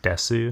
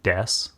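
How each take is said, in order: First: The word ends with a full su syllable. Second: The word ends in a bare s sound. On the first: "sometimes people pronounce it desu because it's D E S U" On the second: "that su sound at the end oftentimes can just become that s"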